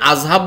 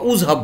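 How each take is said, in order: First: The word begins with an a vowel. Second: The word begins with a u vowel. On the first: "আজহাব বলি না" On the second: "উজহাব বলি না"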